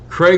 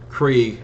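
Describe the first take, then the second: First: The vowel sounds like the one in 'plague'. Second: The vowel sounds like the one in 'league'. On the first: The speaker calls it wrong. "I've been saying it Craig for a while" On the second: The speaker calls it right. "I know it's probably Krieg"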